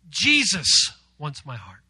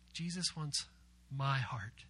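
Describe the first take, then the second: First: The word Jesus is stressed. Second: The word my is stressed. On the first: It is Jesus, the creator of all, who wants it. "give emphasis to Jesus" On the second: The speaker's own heart personally is wanted. "We're going to emphasize my"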